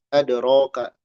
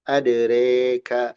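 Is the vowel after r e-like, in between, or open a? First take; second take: open a; e-like. First: The vowel after r is an open a. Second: The vowel after r leans fully toward e. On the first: "dibacanya alif" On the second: "itu imalah"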